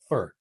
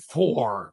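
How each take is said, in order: First: The word has a weak, reduced vowel. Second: The word has a full, clear vowel. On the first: The speaker calls it right. "It's for" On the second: The speaker calls it wrong. "It's not for"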